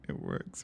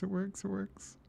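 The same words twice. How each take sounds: First: Breathless whisper of disbelief; awed whisper. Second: Much higher, squealing with joy; delighted squeal. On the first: Whispering to himself as the last test passes. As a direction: hush it out, hardly believing it. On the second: Squealing to the viewers as his solution finally works. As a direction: squeak it out in giddy triumph. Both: Real, not acted.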